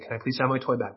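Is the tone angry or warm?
warm. It is said in a warm tone.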